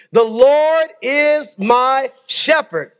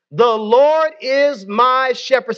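First: Drawn out slowly with LORD stressed; slow call-and-response. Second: Slow, stressed call for the room to repeat; leading the congregation in a slow recitation; slow scripture lead. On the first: Pastor reciting slowly with the congregation. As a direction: lead the room word by word, slowly. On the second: Pastor leading the church, slowly stressing each word. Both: Shown as a demonstration. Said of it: "Say that with me".

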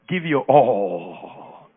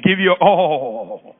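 First: Slow emphatic command. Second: "Give your all" again, slow and louder; louder slow repeat. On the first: Preacher tells the church to say it slowly to a neighbor. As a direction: stretch out "Give your all" very slowly. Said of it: "Tell your neighbor". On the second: Preacher has them repeat it louder to their neighbor. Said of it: "tell him or her again". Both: Shown as a demonstration.

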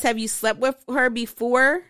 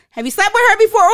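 First: Said in the usual way. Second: Higher, much louder shouted question; loud caps statement. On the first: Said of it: "Or exclamation". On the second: Shown as a demonstration. Reading the all-caps text as a loud statement, shouting. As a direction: yell it as a statement, not a question. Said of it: "That's a loud ass statement".

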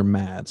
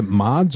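First: Mads with a short "a" as in "cat"; Mads pronunciation. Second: Mods with an open "ah" vowel; Mods pronunciation. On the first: Co-host offering the other pronunciation, Mads with short "a". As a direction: say Mads to rhyme with "lads". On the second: Co-host asking how the name is pronounced, Mods with "ah". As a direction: say Mods to rhyme with "nods". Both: Shown as a demonstration. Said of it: "How do you pronounce his name?".

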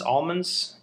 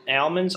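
First: Almonds said AWL-munds; slow "almonds" opening like "all"; trying out pronunciations. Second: Almonds said AL-munds, short "a"; slow "Almonds" opening like "Al"; trying out pronunciations. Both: Shown as a demonstration. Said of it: "I was saying wrong".

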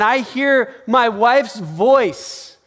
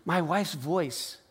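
First: Loud, higher, drawn-out proclamation; raised voice, savoring each word; emphatic exclamation. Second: Soft, slow echo; quiet, drawn-out aside; hushed repeat. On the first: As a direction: announce it big and slow. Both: Real, not acted. Repeats phrase loud, then hushed.

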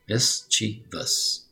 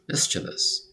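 First: MISCHIEVOUS stretched into three separate syllables; teacher spacing out each syllable of "mischievous"; slow syllable-by-syllable. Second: Said in the usual way. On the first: Shown as a demonstration. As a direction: sound out "mischievous" very slowly. Models the word slowly, then normally.

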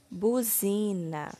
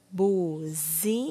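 First: Said in the usual way. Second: BUZINA broken slowly into bu, zi, na; syllable by syllable. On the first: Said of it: "iremos formar a palavra". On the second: Shown as a demonstration. Teacher forming the last word, slowly syllable by syllable. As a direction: sound out BUZINA with gaps between syllables. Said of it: "ordene as sílabas".

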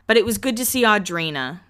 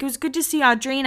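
First: Said in the usual way. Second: Higher, fast breezy quote; quick lightly voiced Heidi; voicing Heidi. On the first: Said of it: "That's what she ends with". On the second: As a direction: lightly play Heidi's shrug. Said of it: "She's like".

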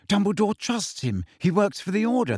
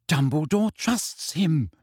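First: High-pitched, exasperated insistence; angry. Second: Slow, emphatic restatement; insistent repeat. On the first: Hermione defending Snape to Ron, angry. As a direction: argue it heatedly in a raised pitch. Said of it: "said Hermione angrily". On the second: Hermione repeating her point to Ron, insistent. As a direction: spell it out slowly, word by word. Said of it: "Hermione repeated". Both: A narrator's reading.

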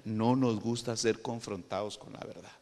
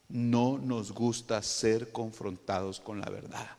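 First: Said in the usual way. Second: Drawn out, measured words; slow it right down for weight; slow emphatic repeat. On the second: Shown as a demonstration. Preacher repeats the hard truth to congregation, slowly.

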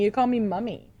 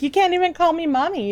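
First: "mummy" said with the short British "uh" vowel, as the friend says it; mock his British "mummy" with a short "uh". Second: "mommy" said the American way, with an open "ah" vowel; teasing him with "mommy", the open American "ah" sound. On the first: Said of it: "his U K accent wouldn't allow him to say mommy". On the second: Retold or imitated.

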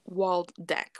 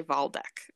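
First: "Waldeck" read the anglicized way, W as written; English W pronunciation. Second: "Waldeck" the German way, opening on a V sound; German accent. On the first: Podcaster reading a German name her own way, "Waldeck" with English W. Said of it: "I feel like you probably say". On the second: Podcaster guessing how Germans say the name, "Waldeck" in a German accent. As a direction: say "Waldeck" as VAHL-deck, German-style. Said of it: "say Waldeck in a German accent". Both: Shown as a demonstration.

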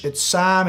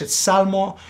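First: "Psalm" with a silent P and no L, sahm; "Psalm" sounds like sahm; English pronunciation. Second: "Salmo" said the Spanish way, S-A-L-M-O with a clear L; pronunciación española de "Salmo"; Spanish pronunciation. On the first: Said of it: "in English". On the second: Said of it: "in Spanish". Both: Shown as a demonstration.

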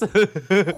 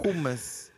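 First: Hummus with a throaty h and an oo vowel; Middle Eastern pronunciation. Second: Said in the usual way. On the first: Shown as a demonstration. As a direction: say Hummus as HOO-mus, throaty h. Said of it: "how hummus is pronounced hummus". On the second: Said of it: "you just say hummus".

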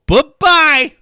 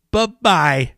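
First: High, loud sing-song taunt; mocking bye-bye. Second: Said in the usual way. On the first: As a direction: wave it off with a taunt. Mocking the song's drop.

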